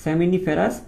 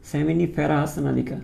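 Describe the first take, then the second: First: Said in the usual way. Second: "seminiferous নালিকা" said very slowly, syllable by syllable; slow it down so students can copy; slow spelled-out term. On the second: Shown as a demonstration. ("seminiferous নালিকা" খুব ধীরে ভেঙে ভেঙে উচ্চারণ) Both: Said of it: "একটু খেয়াল করে শিখে ফেলো".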